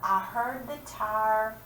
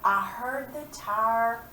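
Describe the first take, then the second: First: Tire drawn out slowly; slow, building up to the answer; teacher rereads the rhyme line slowly; slow read-aloud. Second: Tire drawn out slowly; teacher reads the rhyme line slowly; slow read-aloud. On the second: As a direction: read slowly, leaving a gap. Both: Shown as a demonstration. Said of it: "Before the car".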